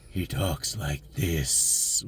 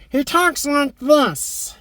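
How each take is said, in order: First: Low, soft, slow and menacing; live action Skeletor voice. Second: High, slow, cackling cartoon villain; cartoon Skeletor voice. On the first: Retold or imitated. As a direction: drop deep and slow like a movie villain. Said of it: "but in the trailer, he talks like this". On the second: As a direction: play the screechy cartoon Skeletor, drawn out. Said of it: "in the cartoon, he talks like this".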